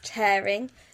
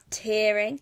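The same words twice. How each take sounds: First: The first syllable does not sound like 'tier'. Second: The first syllable sounds like 'tier'. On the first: It means ripping something apart. The speaker calls it right. "tell him that it's tearing" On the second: It means crying. The speaker calls it wrong. "not tearing. Tearing would be like you're in a higher tier or you're tearing up to cry"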